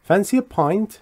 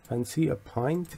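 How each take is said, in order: First: Said in the usual way. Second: Soft, slow offer. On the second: Shown as a demonstration.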